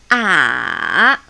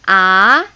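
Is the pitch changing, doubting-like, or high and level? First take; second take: changing; doubting-like. First: The pitch has a small change within it. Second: The pitch sounds questioning, like doubting something. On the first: "The third tone, which is a beach tone" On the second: "I call it doubting tone"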